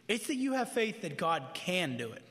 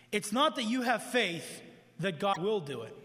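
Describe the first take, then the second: First: "can" weighted as the true point; stress on can. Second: "will" weighted as the idea being rejected; stress on will. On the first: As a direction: land firmly on "can". Corrects will to can. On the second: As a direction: lean on "will" in the sentence. Contrasts will with can. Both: Shown as a demonstration.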